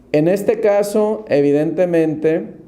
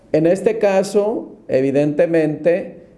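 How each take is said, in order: The two takes are said the same way.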